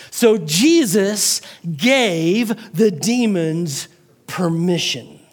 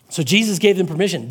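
First: "So Jesus gave the demons permission" very slowly, word by word; slow, careful emphasis. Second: Said in the usual way. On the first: Shown as a demonstration. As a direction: set apart each word, pausing before "permission". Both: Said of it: "watch these words very carefully".

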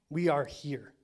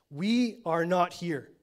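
First: Lighter contrast take; stress on WE. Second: "We" punched loud and slow, falling; "We" stressed, dragged out. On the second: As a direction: hit "We are not here" hard. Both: Shown as a demonstration.

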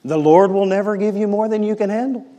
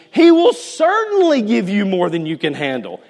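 First: The wrong version, said as cheap comfort; quoting bad advice in a lightly pious voice; imitating a well-meaning friend; mock pious platitude. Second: He stressed, the right reading set firmly; preacher's firm correction. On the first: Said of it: "And somebody goes". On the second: Shown as a demonstration. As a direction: state the truth with weight on he. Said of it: "That is garbage".

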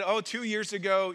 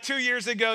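First: Lightly attempted Puerto Rican accent; shaky stab at Puerto Rican English. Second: Said in the usual way. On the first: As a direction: imitate a Puerto Rican man, half-heartedly. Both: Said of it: "I'm not gonna do the accent anymore".

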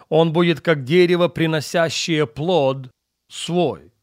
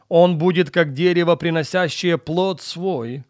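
The two takes are said the same way.

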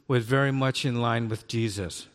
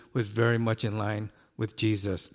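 Both takes have the same delivery.

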